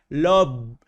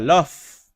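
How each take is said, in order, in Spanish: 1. El sonido final suena como v. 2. El sonido final suena como f. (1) "ni tampoco se dice love" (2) "que se pronuncia love"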